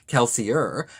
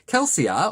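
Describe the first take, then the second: First: The name is said with an American pronunciation. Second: The name is said with a non-American pronunciation.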